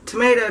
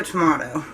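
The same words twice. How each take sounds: First: "Tomato" with middle vowel as in may; "Tomato" pronounced with a long A; tomayto pronunciation. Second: "tomato" with middle vowel as in ma; "tomato" pronounced with an open AH; tomahto pronunciation. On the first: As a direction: say "Tomato" as tuh-MAY-toh. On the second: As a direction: say "tomato" as tuh-MAH-toh. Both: Shown as a demonstration. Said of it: "Tomato, tomato is what I say".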